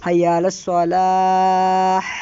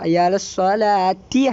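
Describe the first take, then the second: First: The last word ends in an h sound. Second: The last word ends in a t sound. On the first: The reciter stops after this word. "നിർത്തുന്ന സമയത്ത് ആഹ ആയിട്ടാണ് ഉച്ചരിക്കുക" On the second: The reciter continues into the next words. "ഇനി കൂട്ടിയതാണെങ്കിലോ"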